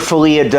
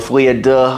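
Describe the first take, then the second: First: The last word ends with an 'oo' vowel. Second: The last word ends with an 'uh' vowel. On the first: The speaker calls it wrong. "I call it Folia Do" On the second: The speaker calls it right. "I believe it's Folia Duh"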